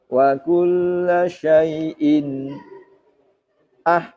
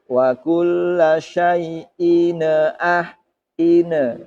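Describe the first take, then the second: First: The voice stops briefly after syai'in. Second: An extra ne sound is added after syai'in. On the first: "Saktah bagaimana? Contohnya begini" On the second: "atau tawalud. Ada ne-nya"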